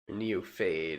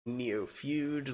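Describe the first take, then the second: First: The ending sounds like the word fade. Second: The ending sounds like the word feud. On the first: "like fatalism?" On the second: "like a feud?"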